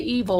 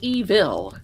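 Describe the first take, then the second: First: The word is said plainly. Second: The word is said dramatically.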